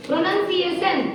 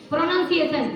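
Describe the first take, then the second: First: प्रोनाउंसिएशन said as "pronunsiation", with a clear s sound; careful retry of प्रोनाउंसिएशन with an s in the middle; corrected pronunciation. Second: प्रोनाउंसिएशन said as "pronunkiation", with a k sound in place of the s; student stumbling on प्रोनाउंसिएशन, k sound in the middle; wrong pronunciation. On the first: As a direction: say प्रोनाउंसिएशन properly, s not k. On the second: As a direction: mispronounce प्रोनाउंसिएशन with a hard k. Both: Real, not acted. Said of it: "गलत बोल रहे हो".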